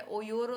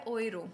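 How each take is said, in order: First: ओयोरो with a full o before the r, the wrong way; wrong pronunciation. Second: ओयरो with a quick oy glide before the r; correct German pronunciation. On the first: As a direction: say ओयोरो as three syllables, o-yo-ro. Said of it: "ओयोरो तो नहीं बन". (गलत उच्चारण: ओयोरो) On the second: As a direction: say ओयरो as two syllables, oy-ro. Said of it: "ये है ओयरो". (सही German उच्चारण: ओयरो) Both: Shown as a demonstration.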